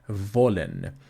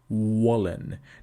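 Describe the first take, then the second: First: It starts with V, teeth touching lower lip. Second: It starts with W, lips pushed forward. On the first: The speaker calls it right. "We want to say wollen because it is labiodental" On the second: The speaker calls it wrong. "you protrude your lips and you say"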